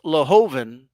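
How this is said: The name is pronounced with English sounds. "if I pronounce it in English"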